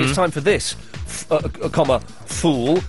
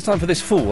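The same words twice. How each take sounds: First: There is a short pause before 'fool'. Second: The phrase runs on with no pause before 'fool'. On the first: The listener is being addressed as fool. The speaker calls it right. "I was saying it's time for this, fool" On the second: The phrase refers to some person as a fool. The speaker calls it wrong. "I wasn't saying it's time for this fool"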